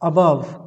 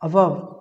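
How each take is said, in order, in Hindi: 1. पहला स्वर 'uh' जैसा सुनाई देता है। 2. पहला स्वर 'uh' जैसा सुनाई देता है।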